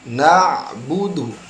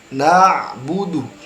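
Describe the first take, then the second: First: The ain is smooth and flexible in the throat. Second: The ain is smooth and flexible in the throat.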